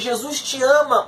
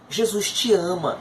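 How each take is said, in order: First: It is said somewhat louder than before. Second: It is said at a normal, soft volume.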